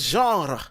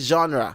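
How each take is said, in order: First: It is pronounced the French way. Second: It is pronounced the English way. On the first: "In French" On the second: "in English say genre"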